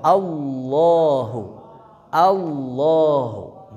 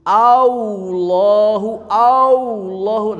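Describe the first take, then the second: First: Slow "Allahu" with a clean heavy lam, no "au"; "Allahu" drawn out, lips not rounded; correct no wau. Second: "Allahu" with a pouted "au" glide, higher and louder; loud, high "Allahu" with a wau slipping in; mixed with wau. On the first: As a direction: say "Allahu" slowly without pouting. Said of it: "tidak boleh monyong". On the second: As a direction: push out the lips so "Allahu" sounds like "Aullohu". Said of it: "campur wau". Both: Shown as a demonstration.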